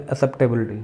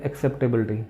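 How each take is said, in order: First: एक्सेप्टेबिलिटी said as "a-sep-tability"; first syllable without k. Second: एक्सेप्टेबिलिटी said as "ak-sep-tability"; k-s pronunciation. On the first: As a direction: drop the k sound in एक्सेप्टेबिलिटी. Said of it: "कई बोलते हैं". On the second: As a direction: sound the k before s in एक्सेप्टेबिलिटी. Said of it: "pronunciation बोलते हैं". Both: Shown as a demonstration.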